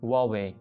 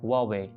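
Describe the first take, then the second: First: The name begins with a 'w' sound. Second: The same.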